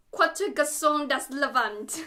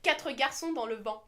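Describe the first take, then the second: First: Bad French attempt. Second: "Quatre garçons dans le vent" in fluent French; proper French. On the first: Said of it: "That was not French". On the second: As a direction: read the French title properly. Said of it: "Actual person who knows French". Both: Shown as a demonstration.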